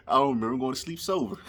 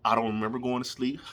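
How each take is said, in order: First: Quick giggly delivery, sober stressed; tickled by his own punchline; laughing punchline. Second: Said in the usual way. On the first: Real, not acted. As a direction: laugh through it, leaning on sober.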